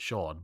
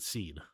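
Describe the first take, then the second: First: The name is said with an 'aw' vowel. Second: The name is said with an 'ee' vowel. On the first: "If you if you're an asshole, you pronounce it Sean" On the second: "but I I pronounce it Scene"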